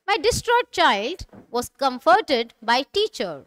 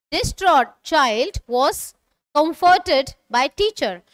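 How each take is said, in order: First: Said in the usual way. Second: Slow, deliberate reading for learners to repeat; slow model sentence. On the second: Shown as a demonstration. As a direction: read it slowly so students can follow. (धीमी, साफ़ पढ़ाई की आवाज़ में) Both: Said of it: "repeat after me".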